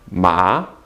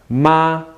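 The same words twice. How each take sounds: First: The syllable is said with a rising tone. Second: The syllable is said with a high level tone.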